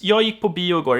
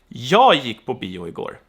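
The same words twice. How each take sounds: First: The sentence is said evenly with no special emphasis. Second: The first word jag is said with strong emphasis. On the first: A plain statement about going to the movies. "is totally neutral" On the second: It was me, not someone else, who went. "we say that with more intensity. Jag has a very distinct emphasis there"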